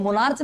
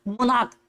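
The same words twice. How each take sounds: First: मोनार्च ending in a ch sound; the wrong मोनार्च, with a ch at the end; wrong pronunciation. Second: मोनार्क ending in a hard k; correct pronunciation. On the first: Teacher warning students against the ch ending. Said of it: "मोनार्च नहीं". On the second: Teacher giving the class the right form, ending in k. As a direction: say मोनार्क as mon-ark, with a k at the end. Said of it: "मोनार्च नहीं, बोलो मोनार्क". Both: Shown as a demonstration.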